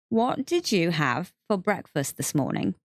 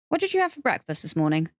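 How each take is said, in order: First: The question is said slowly and deliberately. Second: The question is said at normal speed.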